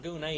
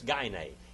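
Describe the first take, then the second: First: The vowel sounds like the 'oo' in 'goon'. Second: It sounds like the start of 'gynecologist'. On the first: The speaker calls it wrong. "Greek scholars pronounce the Greek Gune. But it's not Gune" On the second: The speaker calls it right. "it's Gine. And we get our word gynecologist from that"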